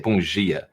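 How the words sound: The d in dia sounds like a j. This is how Brazilians say it. "they say bom dia. Like the D sounds like a J"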